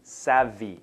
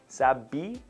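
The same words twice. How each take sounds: First: The first sound is a V sound. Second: The first sound is a B sound. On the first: The speaker calls it right. "it's V" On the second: The speaker calls it wrong. "make sure you're not doing a B sound like tech savvy"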